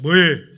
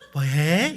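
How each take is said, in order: First: It is said plainly, without a Seoul-style lilt. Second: It is said with a coy, lilting Seoul-style tune. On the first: The speaker calls it wrong. "방금 어떤 분처럼 뭐해? 이건 아니에요" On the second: The speaker calls it right. "서울말처럼 약간 오른쪽으로 찡긋하면서 해야 돼요"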